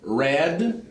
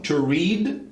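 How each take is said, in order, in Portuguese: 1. A vogal é curta, como em 'red'. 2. A vogal é longa, como em 'reed'. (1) "a pronúncia de passado e particípio são iguais" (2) "a de presente é diferente"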